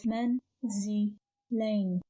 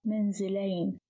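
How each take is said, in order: First: "manzilain" in three separate pieces, paused between each; syllable by syllable. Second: Said in the usual way. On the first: Shown as a demonstration. Teacher dividing a word for learners, "manzilain" syllable by syllable. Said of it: "a word of three syllables". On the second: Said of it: "pronounced as manzilain".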